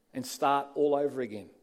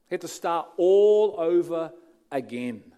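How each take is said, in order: First: Said in the usual way. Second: "He had to start all over again", the word "all" hit hard and much louder; emphatic repeat. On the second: Shown as a demonstration. Preacher driving home Paul's new start, with a loud stress on "all".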